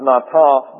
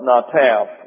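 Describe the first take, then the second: First: The second A is long. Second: The second A is short. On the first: The speaker calls it wrong. "Not Nataf" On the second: The speaker calls it right. "with a short second A"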